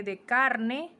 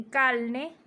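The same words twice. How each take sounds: First: Said in the usual way. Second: Calne, R swapped for a slow clear L. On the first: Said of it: "como el caso de". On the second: Shown as a demonstration. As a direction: say calne, slowly. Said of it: "dicen calne".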